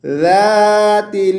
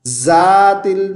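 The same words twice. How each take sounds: First: ज़ातिल chanted as "dhaatil"; tongue between teeth for ज़ातिल, long held aa; correct dhal. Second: ज़ातिल with a buzzing z; wrong z sound. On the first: Teacher gives the correct reading, ज़ातिल as slow "dhaatil". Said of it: "क्या पढ़ना है?". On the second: Teacher shows the mistake, ज़ातिल with a z. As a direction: say ज़ातिल as spoken "zaatil". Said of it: "नहीं पढ़ना". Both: Shown as a demonstration.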